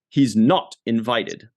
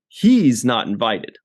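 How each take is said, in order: First: The stress is on the word not. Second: The stress is on the word he's. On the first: The question is whether he is invited or not. The speaker calls it wrong. "he put the emphasis on the wrong word" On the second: It is this man, unlike her, who is not invited. The speaker calls it right. "the way you said it, Michael, was the correct way"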